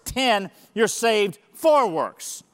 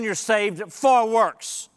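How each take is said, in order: First: Slow with "for" pressed; "saved for works" said slowly, "for" weighted; stress on FOR. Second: "for" leaned on, slow; slow, weighty "saved for works"; stress on FOR. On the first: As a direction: lean on "for" again. Repeating the contrast. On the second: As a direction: hit the word "for". Contrasting verse summaries. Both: Shown as a demonstration.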